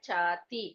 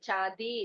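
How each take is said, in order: First: The middle consonant sounds like a hard 't'. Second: The middle consonant sounds like a soft 'd'. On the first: The speaker calls it right. "சாத்தி. ச அதி சூக்ஷ்மம் அப்படின்ற மாதிரி வரும்" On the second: The speaker calls it wrong. "அது சாதி இல்ல"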